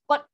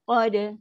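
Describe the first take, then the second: First: The final consonant is cut off abruptly. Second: The final consonant bounces with a soft echo. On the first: It sounds as if the reading has stopped. The speaker calls it wrong. "salah. Sebab apa kita dah putus?" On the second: It shows the reading continues. The speaker calls it right. "So bunyi lantun. Lantun lantun yang lembut"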